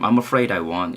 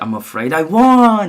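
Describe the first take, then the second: First: It sounds sincerely sorry. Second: It sounds joking and teasing.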